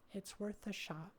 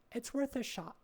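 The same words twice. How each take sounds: First: Quiet. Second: Said in the usual way. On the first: Real, not acted. Repeated much softer.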